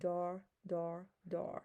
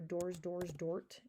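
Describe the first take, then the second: First: The three forms sound exactly alike. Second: The three forms end in different sounds. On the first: This is how it is actually spoken. The speaker calls it right. "out loud, they all sound the same" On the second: This is only how to think of the spelling. The speaker calls it wrong. "in your brain only, you're going to go"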